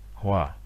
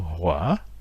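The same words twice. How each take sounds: First: The tone is low and falls. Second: The tone dips and then rises. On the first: It means peace and harmony. "qui est la paix et l'harmonie" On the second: It means fire. "qui est le feu"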